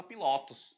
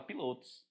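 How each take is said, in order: First: "pilotos" mispronounced with the second syllable opened up; open vowel. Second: Closed o in "pilotos"; "pilotos" with the second syllable kept closed; closed vowel. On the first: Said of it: "Mas você não fala". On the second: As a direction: say "pilotos" softer with a tight closed middle o. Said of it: "você fala pilotos". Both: Shown as a demonstration.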